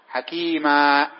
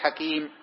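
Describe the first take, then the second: First: The word ends with a long a vowel. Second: The word ends on a bare m consonant. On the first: The speaker calls it right. "نقول وكان الله عليما حكيما" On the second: The speaker calls it wrong. "ما نقول حكيم"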